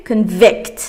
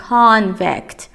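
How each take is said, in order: First: Convict with the stress on the second syllable, con-VICT. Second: Convict with the stress on the first syllable, CON-vict. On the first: Teacher shows students the verb, stress on VICT in Convict. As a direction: keep con light and punch VICT in Convict. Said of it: "اون یکی چیه؟". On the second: Teacher shows students the noun, stress on CON in Convict. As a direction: lean hard on CON in Convict, let vict fall away. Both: Shown as a demonstration.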